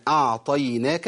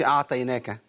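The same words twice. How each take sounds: First: Slow أعطيناك with a full emphatic ط; careful Tajweed أعطيناك with strong ط. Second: أعطيناك said quickly without pressing the ط; casual, unmeasured أعطيناك; wrong quick reading. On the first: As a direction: recite أعطيناك slowly, ط pressed heavy. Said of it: "الطاء عندي حرف مطبق". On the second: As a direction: hurry through أعطيناك with a loose ط. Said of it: "ما قلتش أعطيناك". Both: Shown as a demonstration.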